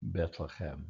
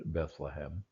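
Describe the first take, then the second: First: Bethlehem with t for th and throaty ch for h; soft Hebrew-style "Bethlehem"; Hebrew pronunciation. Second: Bethlehem with English th and soft h; low, soft English "Bethlehem"; English pronunciation. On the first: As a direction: say "Bethlehem" as one Hebrew word, Bet-le-chem. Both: Shown as a demonstration. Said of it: "this is one word".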